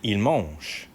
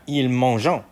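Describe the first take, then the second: First: The final 'ent' ending is left silent. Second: The final 'ent' ending is sounded out. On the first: The speaker calls it right. "It's silent, right? You don't pronounce the nt at the end" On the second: The speaker calls it wrong. "You're not going to pronounce this ent"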